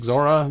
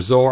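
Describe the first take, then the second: First: The name ends in an extra vowel sound. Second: The name ends on the consonant sound. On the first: Some other people say it this way. "some will pronounce it Zora" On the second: This is how the speaker always says it. "I always pronounce it Zor"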